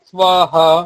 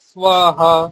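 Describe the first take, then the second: No difference in how they are said.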